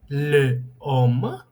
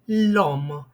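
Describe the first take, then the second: First: The article's vowel is said separately before 'homme'. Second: The article's vowel is dropped and joined to 'homme'. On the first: The speaker calls it wrong. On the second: The speaker calls it right.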